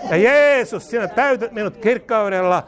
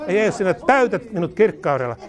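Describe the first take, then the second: First: Emphatic cry. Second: Said in the usual way. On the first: Real, not acted. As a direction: lift the name like a shout of praise. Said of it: "repeated louder as climax". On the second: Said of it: "repeated declaration, plain first take".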